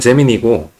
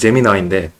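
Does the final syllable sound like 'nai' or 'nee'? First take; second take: nee; nai. First: The word ends with a 'nee' sound. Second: The word ends with a 'nai' sound. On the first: This is the Korean way of saying it. "우리나라 말로 하면" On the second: This is the English way of saying it. "영어식으로 하면"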